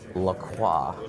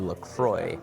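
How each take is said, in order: First: The name is said with a French pronunciation. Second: The name is said with an anglicized pronunciation. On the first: "I was just trying to give the proper French pronunciation" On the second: "I was told on Twitter that it was actually LaCroix"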